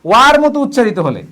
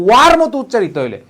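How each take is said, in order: Both takes have the same delivery.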